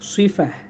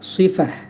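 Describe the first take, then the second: First: The word ends with a soft h sound. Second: The word ends with a soft h sound.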